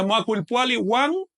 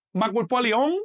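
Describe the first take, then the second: First: "Macuilpuali one" with the linker sounded "wan"; mistaken linker "one". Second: "Macuilpuali on" with a pure o in the linker, no w; corrected linker "on". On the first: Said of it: "Les dije one". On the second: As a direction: end "Macuilpuali on" on a rising, held "on". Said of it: "se usa el ligativo on". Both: Shown as a demonstration.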